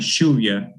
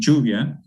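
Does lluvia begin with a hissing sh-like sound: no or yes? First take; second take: yes; no. First: The first sound is a hissing post-alveolar fricative. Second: The first sound is not a hissing fricative. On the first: This is the Argentine way of saying it. "a post-alveolar uh, fricative sound" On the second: This is the Honduran way of saying it. "in Honduras we say lluvia"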